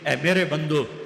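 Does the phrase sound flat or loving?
flat. It is said in a plain, unaffectionate tone. The speaker calls it wrong.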